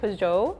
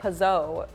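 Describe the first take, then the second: First: The G sound is clearly and strongly pronounced. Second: The G sound is soft and barely heard. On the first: "more with the G" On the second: "According to the internet, in America we say"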